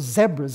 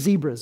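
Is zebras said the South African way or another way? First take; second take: South African; another way. First: It is said in a South African pronunciation. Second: It is said in a non-South-African pronunciation.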